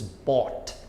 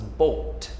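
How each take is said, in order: First: Bought said with an open aw vowel; pronunciation demo. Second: Boat said with a rounded long oh glide; pronunciation demo. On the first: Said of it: "Though they sound very similar". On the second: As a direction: say boat carefully, lips rounded. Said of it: "which is pronounced as boat". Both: Shown as a demonstration.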